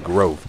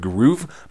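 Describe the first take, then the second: First: The vowel is a long 'oh' sound. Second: The vowel is a long 'oo' sound. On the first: The speaker calls it right. "now I know it is Grove" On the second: The speaker calls it wrong. "previously, I pronounced it as uh"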